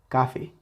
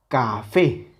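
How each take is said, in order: First: The last syllable is said without stress. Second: The last syllable is said with stress. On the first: "Si le quitamos esa intensidad a la última sílaba, se escucharía café" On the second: "con esa intensidad en la última sílaba"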